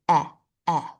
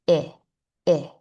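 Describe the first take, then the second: First: "eh" as the open vowel starting elephant; short E sound. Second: "eh" said as "ih", the vowel in sit; short I sound. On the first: Teacher showing what the short E says, short E sound. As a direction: say "eh" twice, short, with cheeks slightly spread. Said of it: "The short E says". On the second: Teacher showing what the short I says, short I sound. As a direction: say "eh" as a short "ih", cut off in the throat. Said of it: "Short I says". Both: Shown as a demonstration.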